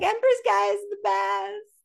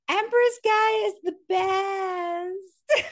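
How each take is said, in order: First: It is said in a put-on Valley girl voice. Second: It is said in a plain, ordinary voice.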